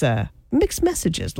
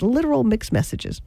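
First: Said in the usual way. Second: "literal" lifted higher and leaned on; stress on literal. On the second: Shown as a demonstration. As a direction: punch "literal" before "mixed messages".

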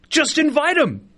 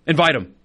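First: Higher, slower, pleading "Just invite 'em"; exasperated high plea; emphatic plea. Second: Said in the usual way. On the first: Real, not acted. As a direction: plead it like it's obvious. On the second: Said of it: "Just bring 'em".

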